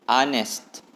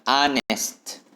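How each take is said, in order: Both takes have the same delivery.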